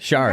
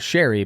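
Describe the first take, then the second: First: The first vowel is an 'ar' sound. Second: The first vowel is an 'air' sound. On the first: The speaker calls it right. "I said that correctly" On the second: The speaker calls it wrong. "I thought it was Sherry"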